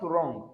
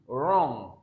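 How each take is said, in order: First: "wrong" with a hard g at the end; "wrong" as the faulty version; wrong sounded g. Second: "Wrong" ending on ng, no hard g; "Wrong" as the correct model; silent g. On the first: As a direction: mispronounce "wrong" as wrong-g. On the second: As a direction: let "Wrong" end on the nasal. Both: Shown as a demonstration. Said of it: "Not wrong".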